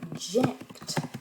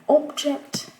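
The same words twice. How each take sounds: First: The stress is on the second syllable. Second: The stress is on the first syllable. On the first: It is used as a verb. "on va réduire la voyelle de la première syllabe dans le verbe" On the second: It is used as a noun. "un zéro, pardon"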